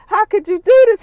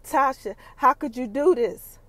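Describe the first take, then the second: First: Much higher, loud betrayed cry; anguished yell. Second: Said in the usual way. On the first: Retold or imitated. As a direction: shout the hurt at her. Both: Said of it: "Ghost is like".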